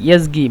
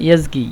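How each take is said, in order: Both takes have the same delivery.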